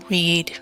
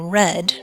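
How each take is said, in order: First: The word rhymes with need. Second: The word rhymes with bed. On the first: The speaker calls it wrong. "just saying it the same" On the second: The speaker calls it right. "we say red, just like the color"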